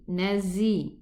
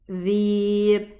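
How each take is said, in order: First: The middle consonant is a z sound. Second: The middle consonant is a voiced th sound. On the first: The speaker calls it wrong. "I'm not going to pronounce this Z" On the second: The speaker calls it right. "No, it's going to be"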